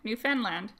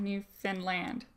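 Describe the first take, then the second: First: The stress is not on the last syllable. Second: The stress is on the last syllable. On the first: The speaker calls it wrong. "No, nope" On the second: The speaker calls it right. "they both get final stress"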